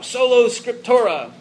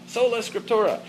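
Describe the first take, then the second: First: "Solo Scriptura" with the first word ending in an o sound, soh-loh; "Solo Scriptura" said as soh-loh, then caught and fixed; slip of the tongue. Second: "Sola Scriptura" with the first word ending in an ah sound, soh-lah; "Sola Scriptura" said soh-lah, softer, as the fix; corrected motto. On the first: Teacher stumbles on the Latin motto: "Solo" with a long o ending. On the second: Teacher corrects himself on the Latin motto: "Sola" ending in ah. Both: Shown as a demonstration.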